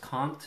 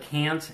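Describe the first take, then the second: First: It is said with a British accent. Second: It is said with an American accent.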